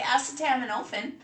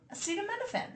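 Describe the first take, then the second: First: It is said in a British accent. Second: It is said in an American accent.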